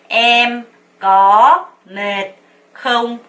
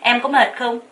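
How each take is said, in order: First: Each syllable is said slowly and separately. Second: It is fast, with có mệt run together. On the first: "하나씩 먼저 연습을 하는 거예요 ... 또박또박 읽는" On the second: "có mệt 은 굉장히 빨리 한다"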